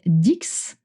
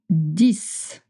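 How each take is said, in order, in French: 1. Le mot se termine par un son X. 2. Le mot se termine sans son X. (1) "You notice I don't say dix" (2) "it's dix"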